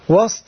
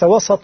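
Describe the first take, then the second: First: The s is followed directly by t, no vowel. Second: The s is followed by a short a vowel. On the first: The top or most honored part of something. The speaker calls it right. "بتسكين السين" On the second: Something lying between two ends. The speaker calls it wrong. "بفتح السين"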